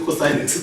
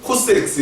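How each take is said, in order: First: Said in the usual way. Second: "코스 X", cos read as spelt; misread "cos". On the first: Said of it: "이렇게 읽으면 안 되고 사인 X". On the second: Shown as a demonstration. Teacher showing a misreading, 코스 for cosine. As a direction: say 코스 X instead of the full word cosine. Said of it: "이렇게 읽으면 안 되고".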